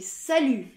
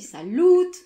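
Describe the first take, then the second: First: The vowel is a rounded 'u' with no final t. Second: The vowel is 'ou' with a final t. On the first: The speaker calls it right. "c'est salut" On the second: The speaker calls it wrong. "ni saloute, mal prononcer le T"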